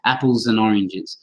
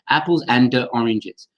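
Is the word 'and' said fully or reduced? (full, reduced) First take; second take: reduced; full. First: The words link, with 'and' reduced to 'uh'. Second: Each word is said separately with a full 'and'. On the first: The speaker calls it right. "the and becomes a schwa, an uh" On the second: The speaker calls it wrong. "It would just sound so strange to say apples and uh, oranges"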